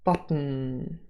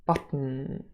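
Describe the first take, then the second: Both takes have the same delivery.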